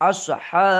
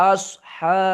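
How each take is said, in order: The two takes are said the same way.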